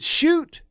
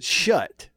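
First: The vowel is a long oo sound. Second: The vowel is a short u sound. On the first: "Is it shoot" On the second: "or is it shut?"

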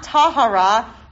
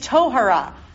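First: The first vowel sounds like 'a'. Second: The first vowel sounds like 'o'. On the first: The speaker calls it wrong. "It's not tahara" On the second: The speaker calls it right. "It's tohara"

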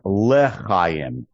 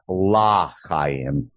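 First: The first syllable has an 'e' vowel. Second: The first syllable has an 'a' vowel. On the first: It wishes for life. The speaker calls it right. "but it's Le'chayim" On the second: It could suggest no life. The speaker calls it wrong. "not La'chayim"

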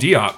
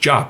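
First: The name begins with a 'dee' sound. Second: The name begins with a 'j' sound. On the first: This is how the broadcast says it. "they still call him Diop" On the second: This is how the player himself says it. "it must be pronounced Jop"

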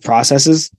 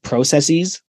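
First: It is said in the ordinary everyday way. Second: It is said in an old Greek-style way. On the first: The speaker calls it right. "instead of processes" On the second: The speaker calls it wrong. "I said processes"

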